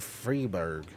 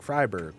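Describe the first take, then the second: First: Freiburg said as FREE-burg with a long ee; an English reading, Freiburg as FREE-burg; first try at the name. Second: Freiburg said as FRY-burg, German style; corrected name. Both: Shown as a demonstration. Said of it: "Fre-, Freiburg".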